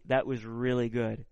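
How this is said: It sounds joyful and delighted.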